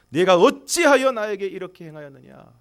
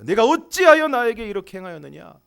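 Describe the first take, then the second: First: It is read plainly, without strong feeling. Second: It is read with feeling, stressing 어찌하여.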